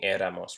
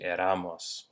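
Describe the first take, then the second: First: The stress is on the first syllable. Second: The stress is on the second syllable. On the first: The speaker calls it right. "We're preserving that uh, tonic syllable" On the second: The speaker calls it wrong. "which is what we would have um, if we uh, didn't have that accent"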